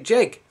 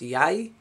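First: The word begins with a J sound. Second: The word begins with a Y sound. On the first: This is how some regional dialects say it. "But these ones say Jeg" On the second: This is how most speakers of the language say it. "which is pronounced Yai for most of the Norwegians"

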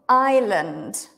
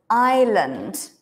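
No difference in how they are said.

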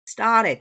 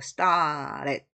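First: The t is a quick light flap. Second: The t is a short stopped sound. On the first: "t가 이제 리을식으로도 발음해요 ... 플랩 사운드" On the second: "stop 사운드라서 start at"

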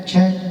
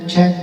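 Both takes have the same delivery.

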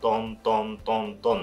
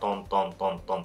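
First: The beats are spoken at a slow tempo. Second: The beats are spoken at a fast tempo.

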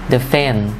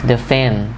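No difference in how they are said.

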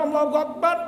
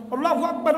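The two takes are said the same way.

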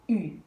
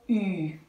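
First: The vowel is short and brief. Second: The vowel is held long.

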